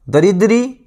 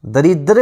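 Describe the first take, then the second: First: दरिद्री ending in a long "ee"; mispronounced दरिद्री. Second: दरिद्र ending in "-dra", no long ee; correct दरिद्र. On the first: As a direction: say दरिद्री as da-rid-REE. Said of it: "दरिद्र होगा". (दरिद्री के अंत में 'ई' बोलें) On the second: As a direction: say दरिद्र as da-RID-ra. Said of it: "शुद्ध शब्द दरिद्र होगा". (दरिद्र के अंत में 'ई' न लगाएँ) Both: Shown as a demonstration.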